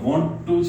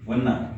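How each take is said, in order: First: Both words are said fully and separately. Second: The two words are blended into one short word. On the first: This is the written, textbook form. "બુકની language છે" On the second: This is how it is said in casual speech. "શોર્ટ્સમાં વન્ના"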